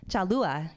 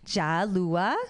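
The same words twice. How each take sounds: First: Said in the usual way. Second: "Jalua" in a Northern Vietnamese accent, lifted at the end. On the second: Shown as a demonstration. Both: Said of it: "understand Northern Vietnamese accent".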